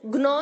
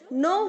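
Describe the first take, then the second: First: A g sound is heard before the n. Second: The word begins directly with the n sound. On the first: The speaker calls it wrong. "ग्नो नहीं होता है बच्चों" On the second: The speaker calls it right. "नो होता है। जी silent है"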